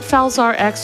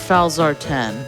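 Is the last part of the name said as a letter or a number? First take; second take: letter; number. First: The last part is said as the letter X. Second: The last part is said as the number ten.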